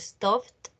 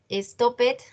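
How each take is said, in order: First: The ending is a single 't' sound. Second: The ending is an extra syllable, like 'id'. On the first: The speaker calls it right. "Con T, terminación en T" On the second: The speaker calls it wrong. "No van a decir"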